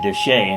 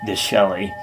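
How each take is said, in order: First: The name is said as two syllables, 'duh shay'. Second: The name is said as three syllables, 'duh shelly'.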